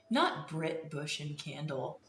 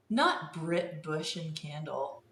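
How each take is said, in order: Both takes have the same delivery.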